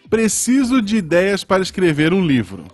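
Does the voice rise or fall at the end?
falls. The voice falls at the end like a statement.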